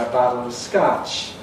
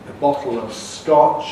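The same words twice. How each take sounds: First: The vowel in bottle is unrounded, like ah. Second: The vowel in bottle is rounded and back. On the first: "Americans say" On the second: "rather than"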